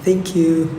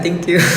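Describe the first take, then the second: First: It is said with an English accent. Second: It is said with a Bisaya accent. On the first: "Pero pag English" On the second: "Pero pag Bisaya"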